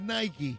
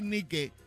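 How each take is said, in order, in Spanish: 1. Nike se dice con pronunciación inglesa. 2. Nike se dice con pronunciación española. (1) "si lo dices en inglés, tiene que decir Nike" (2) "si lo dices en castellano, tienes que decir Nike"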